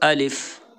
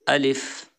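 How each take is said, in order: The two takes are said the same way.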